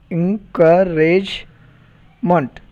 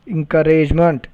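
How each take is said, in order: First: "encouragement" very slow: en, cou, rage, ment; syllable by syllable. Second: Said in the usual way. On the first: Shown as a demonstration. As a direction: break "encouragement" into separate beats. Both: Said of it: "polysyllabic words".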